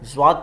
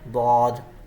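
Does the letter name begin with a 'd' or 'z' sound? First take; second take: z; d. First: The letter name begins with a 'z' sound. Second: The letter name begins with a 'd' sound. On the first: This is the Urdu way of saying the letter. The speaker calls it wrong. "ये ज़्वात पढ़ना उर्दू का तलफ़ुज़ है" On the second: This is the Arabic way of saying the letter. The speaker calls it right. "अरबी का तलफ़ुज़ क्या है?"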